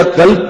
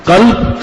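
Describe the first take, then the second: First: قلب said as "kalb", with an ordinary k; qaf turned into kaf. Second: Q, not k, opening قلب; correct qaf. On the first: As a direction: mispronounce قلب with a front k. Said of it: "یہاں سے ادا کر دیا". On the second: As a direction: articulate قلب slowly as qalb. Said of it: "قلب کا مطلب دل". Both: Shown as a demonstration.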